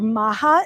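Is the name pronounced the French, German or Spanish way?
Spanish. The name is pronounced the Spanish way. "Maja in Spanish"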